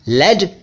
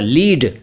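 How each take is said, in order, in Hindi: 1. स्वर छोटा है, 'bed' की तरह। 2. स्वर लंबा है, 'bead' की तरह। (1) "लेड सीसा" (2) "लीड आप जानते हैं"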